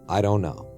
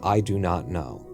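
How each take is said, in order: First: The phrase is said with the contraction "don't". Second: The phrase is said in full as "do not". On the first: "he doesn't say it that way" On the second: "he never contracts anything"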